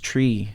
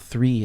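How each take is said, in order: First: It starts with a plain t sound. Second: It starts with a th sound. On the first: "it's tree" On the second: "three is not three"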